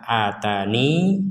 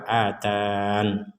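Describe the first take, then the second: First: The word ends with a final 'i' vowel. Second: The word stops on a final 'n' sound. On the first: "ya-nya disukun" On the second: "ya-nya dihilangkan, kemudian waqafnya di nun bersukun"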